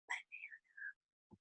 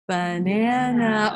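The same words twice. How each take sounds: First: It is said quietly, below talking volume. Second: It is said at normal talking volume.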